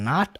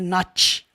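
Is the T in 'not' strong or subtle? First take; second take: subtle; strong. First: The final T is pronounced subtly. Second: The final T is pronounced strongly. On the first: The speaker calls it right. "E o T acaba sendo sutil" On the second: The speaker calls it wrong. "não é not"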